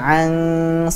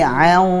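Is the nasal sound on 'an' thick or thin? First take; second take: thin; thick. First: The nasal sound is thin and light. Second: The nasal sound is thick and heavy. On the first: The speaker calls it wrong. "jadi bukan an shalah" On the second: The speaker calls it right. "tapi an, dan siap-siap ke makhrajnya huruf shad"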